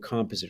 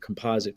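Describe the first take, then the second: First: The word is said in a non-American accent. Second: The word is said in an American accent.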